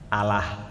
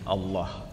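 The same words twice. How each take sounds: First: The word is said with an Indonesian pronunciation. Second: The word is said with an Arabic pronunciation. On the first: The speaker calls it wrong. "ini lidahnya orang Indonesia mengucapkan apa?" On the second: The speaker calls it right. "sama dengan kita kaum muslimin"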